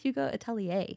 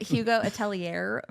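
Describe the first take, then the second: First: The name is said with French-style sounds. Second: The name is said with English-style sounds. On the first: The speaker calls it right. "It's actually pronounced Hugo Atelier" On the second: The speaker calls it wrong. "I was calling it Hugo Atelier for six months until someone corrected me"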